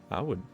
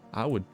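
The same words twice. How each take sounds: The two takes are said the same way.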